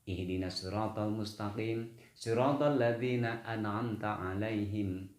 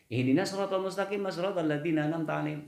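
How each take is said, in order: First: Read carefully, the glottal stop before an'amta is clear. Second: Read fast, the glottal stop before an'amta disappears. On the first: The speaker calls it right. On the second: The speaker calls it wrong. "Kalau dibaca cepat, ... hilang itu"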